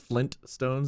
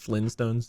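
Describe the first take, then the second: First: The T at the end of Flint is pronounced. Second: The T at the end of Flint is dropped. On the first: The speaker calls it right. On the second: The speaker calls it wrong.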